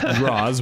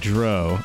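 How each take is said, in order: First: The name ends with a z sound. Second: The name ends with a vowel sound. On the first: The speaker calls it wrong. "I was pronouncing it Mitch Draws" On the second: The speaker calls it right. "It's actually Dro"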